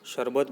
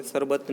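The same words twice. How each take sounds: First: शरबत with a clear sh at the start, shar-bat; teacher modelling the right शरबत with sh; correct sh sound. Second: शरबत said with a plain s at the start, sar-bat; teacher demonstrating the wrong शरबत with s; wrong s sound. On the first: Teacher showing pupils the correct sh in शरबत. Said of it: "ध्यान से स और स को define कीजिए". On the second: Teacher showing pupils the wrong s in शरबत. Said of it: "शरबत नहीं बोलेंगे". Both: Shown as a demonstration.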